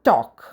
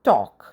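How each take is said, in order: First: The L sound is silent in the word. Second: The L sound is silent in the word.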